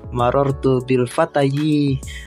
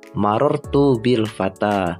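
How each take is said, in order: First: The last word ends with an extra yi syllable. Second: The last word ends on a plain a vowel. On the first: The speaker calls it wrong. "Bacanya bukan" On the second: The speaker calls it right. "Jadi fata fata fata semua"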